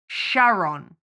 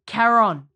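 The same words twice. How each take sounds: First: The name begins with an sh sound. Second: The name begins with a k sound. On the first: The speaker calls it wrong. "Winston says Charon, like Sharon" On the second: The speaker calls it right. "it's C-H, but it's K"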